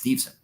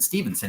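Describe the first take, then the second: First: The name has no n sound before the s. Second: The name has an n sound before the s. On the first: The speaker calls it right. "it's Steveson" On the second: The speaker calls it wrong. "his name isn't Stevenson"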